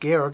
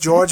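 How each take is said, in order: First: The name is pronounced the German way. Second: The name is pronounced the English way. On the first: This is the form in his own language. The speaker calls it right. "in his language is Georg in the Austrian German" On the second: This is the common international form. The speaker calls it wrong. "everybody says George internationally"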